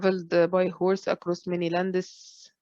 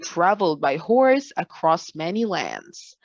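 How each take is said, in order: First: It is read in a flat, bored voice. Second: It is read with lively, moving intonation. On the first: The speaker calls it wrong. "Boring. Very boring" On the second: The speaker calls it right. "this is the right form, the right way"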